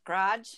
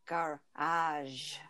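First: "Garage" in one syllable, GRODGE; casual one-syllable "Garage"; colloquial garage. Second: "garage" slowly as gar-AHZH; low, soft, two separated syllables in "garage"; correct garage. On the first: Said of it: "I had the hardest time with garage". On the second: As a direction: sound out "garage" with a zh ending. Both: Shown as a demonstration.

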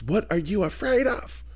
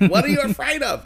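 First: Slow, high Southern lilt; Leslie Jordan impression. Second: Lilting high Southern voice, stress on you; campy Southern question, much higher; Leslie Jordan impression. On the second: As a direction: ask it like Leslie Jordan would. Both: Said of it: "He sounded like Leslie Jordan".

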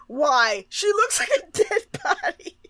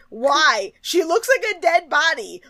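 First: High squeal through laughter; laughing retelling. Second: High-pitched disbelief; incredulous. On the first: Retold or imitated. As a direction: crack up while quoting your own protest. Quotes own remark while cracking up. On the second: Real, not acted. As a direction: protest it, baffled by their taste. Incredulous reaction to the judges.

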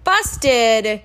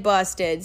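First: Loud, playful busted call. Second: Said in the usual way. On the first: Acted. Teasing after being caught.

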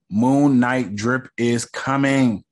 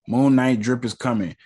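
First: "Moon Knight" drawn out slowly, each word leaned on; slow hype. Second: Said in the usual way. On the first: Shown as a demonstration. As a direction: announce "Moon Knight drip is coming" slow and weighty, like a tease. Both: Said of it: "And you already know".

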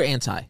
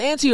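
First: Anti said as "ANN-tie"; ANN-tie pronunciation. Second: Auntie said as "ANN-tee"; ANN-tee pronunciation. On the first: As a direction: end Anti on a "tie" sound. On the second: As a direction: end Auntie on a "tee" sound. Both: Shown as a demonstration. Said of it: "Is it Auntie or Anti?".

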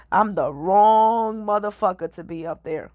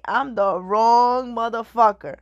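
First: Said through laughter; laughing. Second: Slow, amused repeat; laughing. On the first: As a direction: laugh as you say it. Laughing at the idea of fame. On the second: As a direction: repeat it slower, still laughing. Repeats the line, slower and laughing. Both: Real, not acted.

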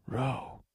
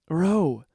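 First: Soft, hushed call; whisper. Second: Louder, higher cry of the name; urgent call. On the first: A narrator's reading. Narrator seeking Ro in the crowd, whispering. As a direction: say the name under the breath. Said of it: "I whisper". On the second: Acted. Narrator finds Ro in the mist, calling urgently. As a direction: call out to reach someone in danger. Calls to Ro amid the gas.

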